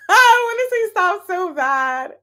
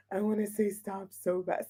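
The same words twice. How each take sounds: First: Laughing, high and loud. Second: Much softer, low aside; quiet. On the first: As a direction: say it through a laugh. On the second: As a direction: drop to a quiet mutter. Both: Real, not acted.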